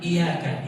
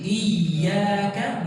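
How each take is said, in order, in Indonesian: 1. Bunyi y tunggal dan pendek. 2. Bunyi y dobel dan ditahan lebih lama. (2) "Kita baca dengan tasydid"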